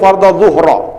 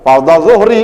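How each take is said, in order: First: The last word ends with an a vowel. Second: The last word ends with an i vowel. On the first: The speaker calls it wrong. "salah harokat" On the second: The speaker calls it right. "Yang benar fardhadz zuhri"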